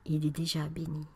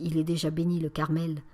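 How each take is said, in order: First: Soft, hushed and kind; gentle, softened murmur; gently. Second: Curt, displeased reply; a touch of irritation, said flatly. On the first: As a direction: reassure her tenderly. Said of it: "reprit avec douceur". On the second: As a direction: brush off the request with mild annoyance. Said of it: "d'une voix mécontente". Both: Acted.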